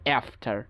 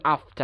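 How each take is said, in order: First: It is said in an American accent. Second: It is said in a British accent.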